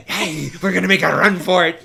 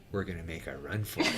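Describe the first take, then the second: First: Louder, eager and pumped; excited announcement. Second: Low, much softer and fast, quick and conspiratorial; hushed announcement. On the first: Excited crew shouting they'll outrun the gunship, pumped call. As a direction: call it out like the crew is thrilled to run. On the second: Fisherman quietly telling the crew they'll flee, hushed and fast. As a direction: tell the crew the plan under your breath. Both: Retold or imitated.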